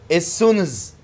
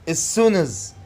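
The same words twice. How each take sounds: The two takes are said the same way.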